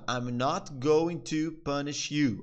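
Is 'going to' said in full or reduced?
full. 'Going to' is said in full.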